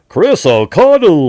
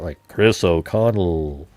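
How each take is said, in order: First: It is said in a silly, goofy voice. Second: It is said in a booming announcer voice. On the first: It mocks how another person says the name. The speaker calls it wrong. "You go like this. ... like some goofball" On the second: It is how the speaker means to say the name. The speaker calls it right. "But I try to do it like a radio"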